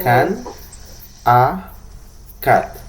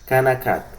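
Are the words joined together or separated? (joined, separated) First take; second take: separated; joined. First: Each word is said separately. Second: The words run together as one word. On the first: The speaker calls it wrong. "no tengo la necesidad de decir" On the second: The speaker calls it right. "Una sola palabra"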